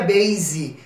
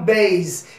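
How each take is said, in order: First: The word ends with an added 'ee' vowel sound. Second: The word ends on the consonant, no final vowel. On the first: The speaker calls it wrong. "Não seria base" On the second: The speaker calls it right. "então base"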